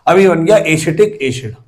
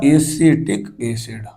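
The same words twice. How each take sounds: First: Said in the usual way. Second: Slowed repeat, acetic acid drawn out; slow dictation. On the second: Real, not acted. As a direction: stretch acetic acid syllable by syllable for note-takers. Repeats slowly for writing down. (Acetic acid को खींचकर, धीरे-धीरे दोहराते हुए)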